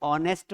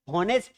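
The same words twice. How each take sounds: First: ऑनेस्ट with a silent h, starting on the vowel, like on-est; correct pronunciation. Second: हॉनेस्ट with a sounded h at the start, like hon-est; wrong pronunciation. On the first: Shown as a demonstration. Teacher gives students the right form: ऑनेस्ट with the h silent. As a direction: say ऑनेस्ट with no h sound at all. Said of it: "इसका pronunciation क्या होना चाहिए". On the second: Retold or imitated. Teacher retells the friend's mistake: हॉनेस्ट with a spoken h. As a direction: mimic the friend saying हॉनेस्ट with the h. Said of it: "एच silent है".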